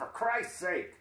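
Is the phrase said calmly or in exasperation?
exasperation. It is blurted out as an exasperated exclamation. It is used as an oath of annoyance. The speaker calls it wrong. "the way my mother would read it"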